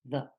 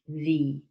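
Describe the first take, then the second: First: The vowel is short, like 'thuh'. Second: The vowel is long, like 'thee'. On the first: The next word does not begin with a vowel. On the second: The next word begins with a vowel. "a long E"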